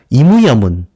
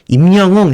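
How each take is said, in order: First: The name is stretched with extra vowels, Japanese-style. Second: The name is said with Korean final consonants. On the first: "일본인들이 발음하기가 굉장히 어려워서 늘려서 말하게 되는" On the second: "자기 이름을 말하면서 임영웅 해야 되는데"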